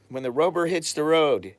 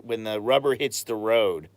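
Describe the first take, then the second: First: Louder and higher, punching "When the rubber hits the road"; exasperated emphasis on "When the rubber hits the road"; emphatic repeat. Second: Said in the usual way. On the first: Real, not acted. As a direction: land "When the rubber hits the road" hard, pitched up, as the point. Repeats found phrase emphatically.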